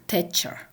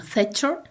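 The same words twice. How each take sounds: First: Thatcher begun with a hard T, "Tetcher"; Russian-style t. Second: Thatcher begun with a TH sound; English name with th. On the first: Lecturer showing the Russian transcription, initial t. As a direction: say "Thatcher" with t in place of th. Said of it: "transcribed like". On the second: Lecturer giving the English original, initial th. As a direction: say "Thatcher" with th at the front. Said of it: "as in the name". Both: Shown as a demonstration.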